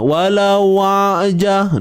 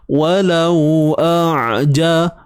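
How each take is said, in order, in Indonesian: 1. Hamzah dilemahkan menjadi bunyi w. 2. Hamzah yang jelas memisahkan kedua kata. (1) "jangan lemahkan bunyi hamzah ni, nanti lain bunyinya... dia jadi wa" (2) "Pastikan hamzah ni kita jelaskan bunyi dia. Pisahkan"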